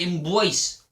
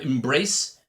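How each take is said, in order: First: It is said without the R, New York style. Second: It is said with the R pronounced.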